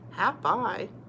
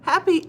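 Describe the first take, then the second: First: The word ends with an 'eye' sound. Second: The word ends with an 'ee' sound. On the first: The speaker calls it wrong. "That doesn't sound right" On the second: The speaker calls it right. "yes, happy"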